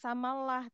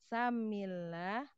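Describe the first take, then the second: First: The vowel after the m is a. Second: The vowel after the m is i. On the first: The speaker calls it wrong. "Bukan samalah" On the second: The speaker calls it right. "tapi samillah"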